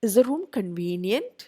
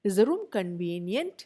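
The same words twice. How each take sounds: Both takes have the same delivery.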